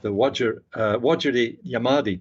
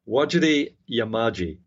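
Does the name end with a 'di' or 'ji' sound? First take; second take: di; ji. First: The name ends with a 'di' sound. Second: The name ends with a 'ji' sound. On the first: The speaker calls it wrong. "I did mispronounce that" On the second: The speaker calls it right. "That's the correct pronunciation"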